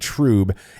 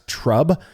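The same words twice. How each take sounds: First: The vowel is a long oo sound. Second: The vowel is a short uh sound. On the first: The speaker calls it right. "it is pronounced T R O O B" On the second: The speaker calls it wrong. "and not trub"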